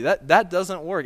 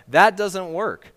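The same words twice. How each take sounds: First: THAT repeated, stressed, louder and higher; emphatic repeat. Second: THAT stressed, slow and much louder; emphatic. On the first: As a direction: stumble then hit THAT hard. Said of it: "repeated emphatic rejection". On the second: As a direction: land hard on THAT, drawn out. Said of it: "emphatic rejection of stranger". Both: Real, not acted.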